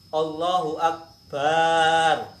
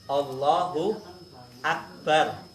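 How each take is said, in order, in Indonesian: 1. Vokal terakhir dari Akbar dipanjangkan. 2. Vokal terakhir dari Akbar pendek. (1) "baknya kan panjang"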